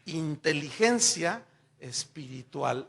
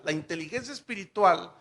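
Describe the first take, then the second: First: Inteligencia espiritual, slow, each word drawn out; "Inteligencia espiritual" slowly stretched; savoured phrase. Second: Said in the usual way. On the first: Shown as a demonstration. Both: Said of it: "qué frases".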